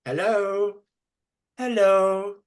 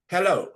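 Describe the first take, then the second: First: Hello? high and rising like a question. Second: Said in the usual way. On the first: Shown as a demonstration. Teacher demonstrates a high questioning Hello?. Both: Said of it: "Listen to the way I say it".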